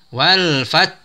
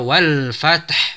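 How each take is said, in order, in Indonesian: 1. Huruf t ditahan tanpa pantulan sama sekali. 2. Huruf t dilepas dengan pantulan yang bergema. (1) "tidak dipantulkan" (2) "bukan dibaca wal fath ... sehingga taknya dipantulkan"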